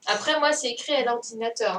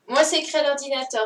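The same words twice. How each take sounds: First: Said in the usual way. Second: Louder, fast, with a hard stress on "Moi"; emphatic repeat. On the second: Real, not acted. Teacher insists to a pupil, louder, stressing "Moi". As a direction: punch "Moi" and push the line out fast.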